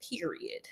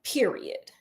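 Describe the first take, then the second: First: Unvoiced breathy period; whispered period. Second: Whispered period. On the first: Telling viewers to go, a whispered period. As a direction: whisper the word period for emphasis. Emphatic sign-off word. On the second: Acted. Insisting viewers visit the falls, whispered Period. Emphatic sign-off repeated.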